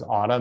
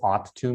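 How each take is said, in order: First: The words blend into one reduced word. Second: Both words are said fully and separately. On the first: "in American English, we would say oughta" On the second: "what does ought to mean, they might not know"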